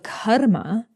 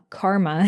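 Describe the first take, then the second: First: It is said with a Sanskrit pronunciation. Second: It is said with an American English pronunciation. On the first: "let's use the Sanskrit pronunciation" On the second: "karma in, in American English"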